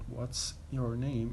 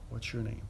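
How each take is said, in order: First: Each word is pronounced separately and carefully. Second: The words run together with sounds merged.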